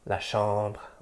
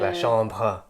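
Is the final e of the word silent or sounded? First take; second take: silent; sounded. First: The final e is silent. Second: The final e is sounded as an extra syllable. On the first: The speaker calls it right. "the e at the end of a word is not pronounced" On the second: The speaker calls it wrong. "you're not going to say"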